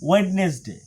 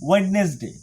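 The two takes are said the same way.

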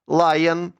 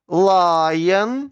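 First: The word is said quickly. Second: The word is said slowly. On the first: "Швидко" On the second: "Повільно"

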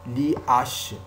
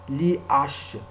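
The two takes are said the same way.

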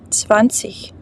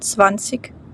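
First: The ending is a soft ch sound. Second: The ending is a hard g sound. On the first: This is the standard pronunciation. "як ich" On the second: This is a regional pronunciation. "в деяких містах воно читається як ig"

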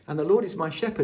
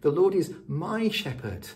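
First: The word shepherd is stressed. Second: The word my is stressed.

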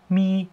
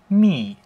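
First: The pitch stays high and level. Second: The pitch falls sharply downward.

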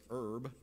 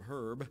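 First: The word starts without an h sound. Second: The word starts with an h sound. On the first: "take a little H off" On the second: "instead of herb"

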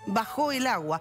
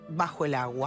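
First: The stress in 'bajo' is on the last syllable. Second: The stress in 'bajo' is on the first syllable. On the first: The water went down. "si la situación mejora" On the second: The place is covered by the water. "si yo la leo tal cual está"

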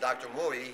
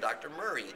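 First: The R sound in the name is dropped. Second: The R sound in the name is clearly pronounced. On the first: The speaker calls it wrong. "instead of saying" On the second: The speaker calls it right. "He understands he has to use his R's"

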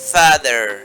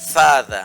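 First: The final r is pronounced. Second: The final r is silent. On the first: "আমেরিকানরা সেখানে বলবে" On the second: "ব্রিটিশরা শেষের আর ই এখানে উচ্চারণ করেনি"

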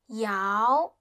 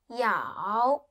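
First: It is said with the second tone. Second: It is said with the third tone.

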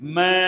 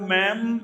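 First: The word ends without a nasal sound. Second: The word ends with a nasal sound. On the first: The speaker calls it right. "മേ എന്ന് പറയാം" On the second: The speaker calls it wrong. "അതൊരു കാരണവശാലും മേം എന്ന് പറയരുത്"

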